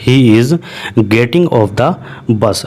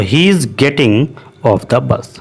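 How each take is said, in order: First: Slow but joined, He is getting off the bus in one go; smooth slow repeat. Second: Very slow, split into parts; slow model sentence. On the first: Teacher repeats the sentence whole for students, slow. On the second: Teacher models the sentence for students, slowly. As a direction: lay out He is getting off the bus piece by piece. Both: Shown as a demonstration. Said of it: "इस तरीके से हम बोलेंगे".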